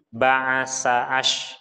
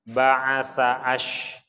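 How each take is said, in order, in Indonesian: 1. Konsonannya bunyi 's' mendesis. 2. Konsonannya bunyi 'th' lembut di antara gigi.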